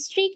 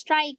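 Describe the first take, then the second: First: The vowel is a long 'ee' sound. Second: The vowel is an 'eye' sound. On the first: The speaker calls it wrong. "स्ट्रीक नहीं" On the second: The speaker calls it right. "स्ट्राइक बोलते"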